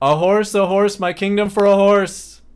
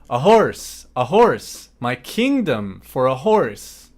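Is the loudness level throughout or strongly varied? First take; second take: level; varied. First: It is spoken at one steady, level volume. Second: It is spoken with changing volume and strong emphasis. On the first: "first say it this way: a sustained level of volume" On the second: "Much, much more emphasis"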